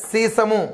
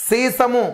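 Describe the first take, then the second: No difference in how they are said.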